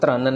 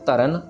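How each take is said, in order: First: The first two consonants are run together. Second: A vowel separates the first two consonants. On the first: The speaker calls it wrong. "हमने क्रन या त्रन नहीं पढ़ना" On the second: The speaker calls it right. "इसको तरन और करण ही पढ़ना है जैसे लिखा हुआ है"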